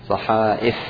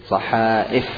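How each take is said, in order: Both takes have the same delivery.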